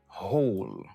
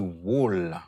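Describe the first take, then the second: First: No W sound is pronounced at the start. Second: A W sound is pronounced at the start. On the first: The speaker calls it right. "ou dit whole" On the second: The speaker calls it wrong. "Ou pas dit wall"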